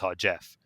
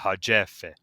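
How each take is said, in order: First: The name ends abruptly on a hard consonant. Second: The name ends smoothly with an added vowel. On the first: "in English it would be pronounced harjef. That's like too sharp of a stop" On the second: "smooth it out"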